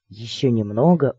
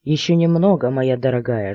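First: Gloomy. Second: Voiced murmur into the ear; a suitor's intimate aside; hot whisper. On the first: Another man beside them in the closet, gloomy. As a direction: grumble it from the side, sullen. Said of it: "угрюмо заметили сбоку". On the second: Man in the dark closet into her ear, hotly murmured. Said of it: "жарко шепнули мне на ухо". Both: A narrator's reading.

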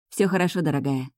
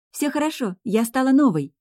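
First: Gentle reassurance; tender. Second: Put-on high, thrilled young girl; delighted. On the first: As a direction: soothe a little girl tenderly. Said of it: "ласково улыбнулась я девочке". (ласково, успокаивающе) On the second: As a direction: announce it brimming with delight. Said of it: "с горящими от восторга глазами заявила юная ведьмочка". (восторженно, высоким голосом) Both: A narrator's reading.

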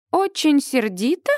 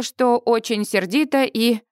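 First: «Очень сердита?» with a high questioning rise; incredulous echo. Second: Said in the usual way. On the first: A narrator's reading. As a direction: echo it back in disbelief. (недоверчивый переспрос, «Очень сердита?» с подъёмом)

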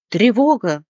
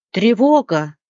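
First: Louder repeated parrot alarm; alarmed cry. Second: Louder parrot alarm call; alarmed cry. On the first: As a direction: call the alarm again. (попугай повторяет тревогу, громко) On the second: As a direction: sound the alarm. (попугай поднимает тревогу, громко) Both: Acted. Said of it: "закричал попугай".

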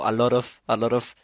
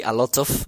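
First: "a lot of" with T as a tapped R. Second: "a lot of" with a clear T; hard T. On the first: Co-host showing Spanish speakers the tap, "a lot of" with tapped T. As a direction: flick the T in "a lot of" like a Spanish single R. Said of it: "la R". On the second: Co-host giving an example of the tap, "a lot of" with clear T. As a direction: sound the T fully in "a lot of". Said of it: "for example, when you say". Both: Shown as a demonstration.

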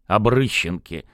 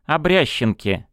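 First: Обрыщенке with ы, the right form; corrected name. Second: Обрященке with я, the wrong form; mispronounced name. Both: Acted. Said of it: "поправил Мурыгин".

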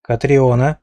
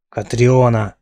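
First: Said in the usual way. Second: Name growled out in mild anger; understated angry growl on Катриона. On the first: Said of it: "начал Динар". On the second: Acted. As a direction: growl the name, a touch louder. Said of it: "прорычал медноволосый".

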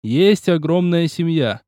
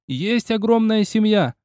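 First: Slow hollered verse. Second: Higher, slow roar; roared verse. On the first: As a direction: holler each word slowly. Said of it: "заголосил Киоси". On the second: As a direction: bellow it into his ear. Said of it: "новый рёв на ухо". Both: Acted.

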